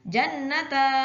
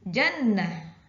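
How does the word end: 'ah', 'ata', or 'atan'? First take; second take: ata; ah. First: The word ends with an open 'ata' sound. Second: The word ends with a short 'ah' sound. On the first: The speaker calls it wrong. "bukan pula dibaca jannata. Tidak seperti itu" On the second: The speaker calls it right. "tapi jannah"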